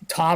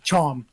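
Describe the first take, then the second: First: The name is said in a plain American accent. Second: The name is said in a British accent.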